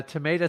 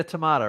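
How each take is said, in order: First: Tomato with AY, tuh-MAY-tuh; American pronunciation. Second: Tomato with AH, tuh-MAH-tuh; alternative pronunciation. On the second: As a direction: say tomato with "ma" as in mama. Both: Shown as a demonstration. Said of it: "It's like, uh".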